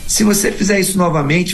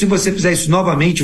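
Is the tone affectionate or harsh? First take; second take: affectionate; harsh. First: It is said in a warm, affectionate tone. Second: It is said in a harsh, threatening tone. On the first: It is still a threat, only said kindly. "mesmo dito de forma amorosa" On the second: It is a threat. "da maneira mais ríspida possível"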